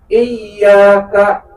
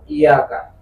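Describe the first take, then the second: First: The y sound is doubled and held long. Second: The y sound is single and short. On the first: Only to you. The speaker calls it right. "berarti ya-nya ada dua di situ" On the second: The sun. The speaker calls it wrong. "Kalau dibacanya nggak pakai tasdid kayak iyaka"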